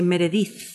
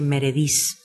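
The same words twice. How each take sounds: First: The name is said with a Castilian Spanish accent. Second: The name is said with a Spanish accent.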